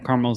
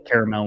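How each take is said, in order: First: It is said in a plain, casual way. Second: It is said in a fancy, refined way. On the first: This is the speaker's everyday way of saying it. "caramel's natural to me" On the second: The speaker is trying to sound sophisticated. "I'll say caramel when I'm trying to be fancy"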